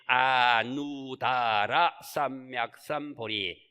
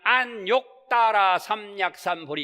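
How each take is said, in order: First: The first word has no 'k' sound: anudara. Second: The first word has a 'k' sound: anokdara. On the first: This is closest to the original Sanskrit. "인도 범어에 제일 가깝게끔 우리말로 표현하는 거지" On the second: This is the customary Korean reading. "우리는 안욕다라 삼약삼보리 이렇게 하죠"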